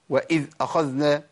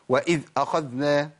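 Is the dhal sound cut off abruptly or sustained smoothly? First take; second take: cut off; cut off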